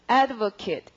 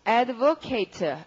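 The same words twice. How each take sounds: First: The final syllable takes the noun pronunciation. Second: The final syllable takes the verb pronunciation. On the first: It is the noun meaning a supporter. "명사로 발음하면" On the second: It is the verb meaning to support. "동사로 발음하면"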